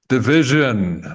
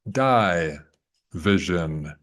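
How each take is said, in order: First: The first syllable has a short 'ih' vowel. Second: The first syllable is said like 'die'.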